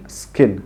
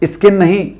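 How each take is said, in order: First: स्किन much lower and softer, on a clean s; right skin. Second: स्किन said as "iskin" with a long n; wrong iskin. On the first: Teacher quietly models the correct स्किन. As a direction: start स्किन on the s with no vowel. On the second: Teacher mimicking the learner mistake. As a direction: put an "i" before स्किन on purpose. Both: Shown as a demonstration.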